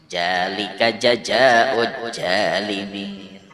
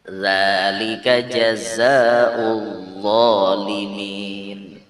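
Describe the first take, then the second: First: The words begin with a j sound. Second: The words begin with a z-like sound. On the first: The speaker calls it wrong. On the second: The speaker calls it right.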